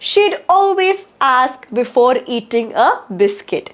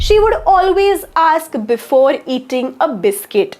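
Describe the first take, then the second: First: The words are shortened to she'd. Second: The word would is said in full.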